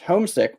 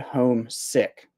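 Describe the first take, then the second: First: The stress falls mainly on the first part. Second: Both parts of the word are stressed equally. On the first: Someone misses home. "one word, you hear the first syllable a little bit more" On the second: Someone stayed at home because of illness. "where it's two words, you actually kind of really emphasize both words"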